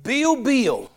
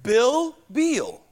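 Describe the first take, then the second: First: Southern accent. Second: Minnesota "Bill Beal", the two names kept distinct; non-Southern "Bill Beal": short i, then long ee; non-Southern accent. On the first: Shown as a demonstration. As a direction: say both names as "Beale" in Southern US style. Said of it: "in my southern accent". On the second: Retold or imitated. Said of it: "she's from Minnesota".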